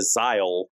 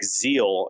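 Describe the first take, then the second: First: The vowel sounds like 'eye', as in mile. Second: The vowel sounds like 'ee', as in eel. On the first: "instead of Zyle" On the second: "I was pronouncing it like zeal"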